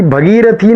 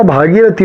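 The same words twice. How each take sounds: First: भगीरथी with a short a after bh; the mistaken भगीरथी, first vowel clipped; wrong pronunciation. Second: भागीरथी with a long aa after bh; correct pronunciation. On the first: Teacher marks भगीरथी as wrong, short first a. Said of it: "भगीरथी नहीं होता". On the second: Teacher gives the correct भागीरथी with a long aa. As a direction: stretch the first vowel of भागीरथी. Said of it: "भागीरथी होता है". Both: Shown as a demonstration.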